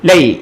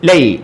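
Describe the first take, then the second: No difference in how they are said.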